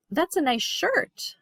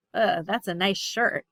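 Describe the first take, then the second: First: That's a nice shirt with a bright rise on a, said slowly and sincerely; a genuine compliment, stretched out; honest praise, slow and rising. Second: A dubious compliment; sarcastic, unimpressed praise. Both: Shown as a demonstration. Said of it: "difference in tone of voice".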